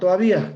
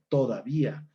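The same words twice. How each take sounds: First: A sound inside the word is dropped. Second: The word is said with every sound. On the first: The speaker calls it wrong. "Palabra con síncopa" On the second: The speaker calls it right. "la palabra correcta es"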